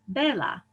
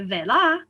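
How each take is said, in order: First: The stress falls on the first syllable. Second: The stress falls on the last syllable. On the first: The speaker calls it right. "Llano words emphasize the second to last syllable" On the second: The speaker calls it wrong. "I don't say vela"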